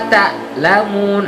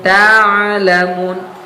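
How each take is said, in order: First: The ain sounds like a plain glottal catch. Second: The ain flows smoothly into the word. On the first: The speaker calls it wrong. "hamzah bunyinya" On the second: The speaker calls it right. "Harusnya saufa ta'lamun, ta'lamun. Mengalir"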